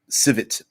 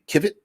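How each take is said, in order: First: The word begins with an S sound. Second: The word begins with a K sound. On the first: "I'm calling it civet" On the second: "but it could be kivet"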